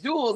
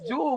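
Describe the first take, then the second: First: The name ends with an s sound. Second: The name ends without an s sound. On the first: The speaker calls it wrong. "She said Jules" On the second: The speaker calls it right.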